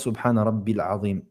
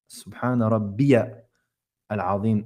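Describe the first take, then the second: First: Rabbi links straight into Azim with no 'ya'. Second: A 'ya' syllable is sounded between Rabbi and Azim. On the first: The speaker calls it wrong. "pas Subhana Rabbil Azim" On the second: The speaker calls it right. "on dit Subhana Rabbiya"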